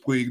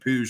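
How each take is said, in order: First: The name is said in an anglicized way. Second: The name is said the Spanish way. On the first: The speaker calls it wrong. "I had thought it was Puig the entire time" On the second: The speaker calls it right. "that's how that's pronounced in Spanish"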